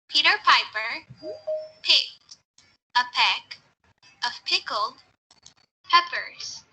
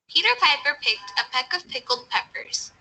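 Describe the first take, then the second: First: It is said a bit slowly. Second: It is said at normal speed.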